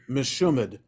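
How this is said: It is said with a Yiddish pronunciation. "the Yiddish pronunciation would be meshumad"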